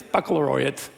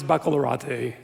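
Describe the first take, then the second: First: Baccalaureate said "back-a-LOR-ee-ut"; standard pronunciation. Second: Baccalaureate said "back-a-lor-AH-tay"; mispronounced baccalaureate. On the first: Speaker corrects himself before the class, baccalaureate as "LOR-ee-ut". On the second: Speaker insists to the class, baccalaureate ending "AH-tay". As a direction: end baccalaureate on a stressed "AH" then "tay". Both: Shown as a demonstration. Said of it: "that's how it's pronounced".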